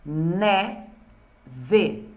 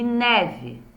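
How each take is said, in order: First: Neve split into ne and ve with a pause; syllable by syllable. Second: Said in the usual way. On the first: Shown as a demonstration. Teacher counting two syllables, neve syllable by syllable. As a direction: say neve as two separate beats. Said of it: "Duas sílabas". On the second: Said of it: "as palavras com duas sílabas".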